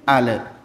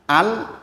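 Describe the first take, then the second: First: The l releases into an extra vowel sound. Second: The l ends cleanly with no added vowel. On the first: The speaker calls it wrong. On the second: The speaker calls it right.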